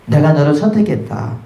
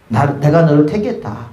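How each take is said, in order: First: 선택했다 pressed hardest, 내가 너를 lighter; stress on 선택했다. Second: 내가 pressed hardest, 택했다 falls away after it; stress on 내가. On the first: Preacher voicing God, stressing 선택했다. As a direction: lean on 선택했다 as God speaking. God's words quoted to the speaker. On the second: Preacher restating God's call, stressing 내가. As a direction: lean on 내가 as God speaking. God's words repeated in correction. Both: Acted.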